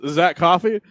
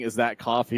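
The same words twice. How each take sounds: First: It is said in a different, put-on accent. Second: It is said in a plain, ordinary accent. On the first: "he goes" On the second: "instead of saying"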